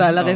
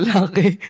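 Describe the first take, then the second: First: It is said with the standard Tagalog stress. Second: It is said with the Batangas regional stress. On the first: "yung lalaki" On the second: "mali kasi yung pronunciation sa Batangas"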